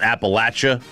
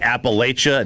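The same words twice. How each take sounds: First: It is said the way Southerners say it. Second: It is said the way non-Southerners say it. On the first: The speaker is from the South. The speaker calls it right. "not Appalachia" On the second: The speaker is not from the South. The speaker calls it wrong. "if you say Appalachia ... I know you're not from the South"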